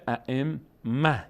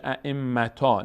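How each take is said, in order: First: ائمه slowly, ending -mah without t; correct pausal h. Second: ائمتا ending on -taa, t kept; wrong long-a stop. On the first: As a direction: stop on ائمه with a breathed final h. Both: Shown as a demonstration.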